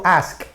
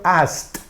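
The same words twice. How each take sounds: First: "ask" ending in a released k; base form ending. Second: "asked" said slowly as "ast", ending in t. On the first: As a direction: finish "ask" on sk, with no t. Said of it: "aquí yo digo ask". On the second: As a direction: close "asked" on a crisp voiceless t. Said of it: "terminado en T". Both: Shown as a demonstration.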